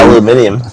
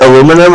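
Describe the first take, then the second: First: It is said with five syllables, ending -nium. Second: It is said with four syllables, ending -num.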